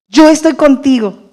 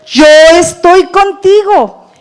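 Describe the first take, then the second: First: "Yo" stressed, at normal pace and a little raised; repeated promise. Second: "contigo" drawn out slow, higher and louder with a falling close; slow, emphatic promise, leaning on "contigo"; God's reassuring words. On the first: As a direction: settle the promise, hitting "Yo". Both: Acted. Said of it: "para decirnos".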